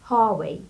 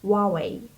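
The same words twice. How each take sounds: First: The word is said with an H sound. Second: The word is said without an H sound. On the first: This is the American English way of saying it. "in English, American English, we pronounce it like Huawei" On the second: This is the Chinese way of saying it. "in Chinese they pronounce it something like Huawei because in Chinese letter H doesn't pronounce"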